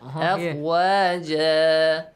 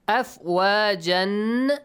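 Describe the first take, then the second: First: The word ends with a long a vowel. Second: The word ends with an n sound. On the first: The reading stops on this word. "When you stop, tanwin fatha is changed to? Alif mad" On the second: The reading continues past this word. "Tanwin fatha"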